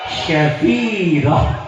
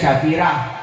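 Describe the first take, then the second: First: The name is said with Arabic sounds. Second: The name is said with Indonesian sounds. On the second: "kalau di Indonesia syafirah"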